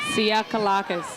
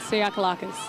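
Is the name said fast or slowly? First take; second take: slowly; fast. First: The name is said at a slower pace. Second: The name is said at a faster pace.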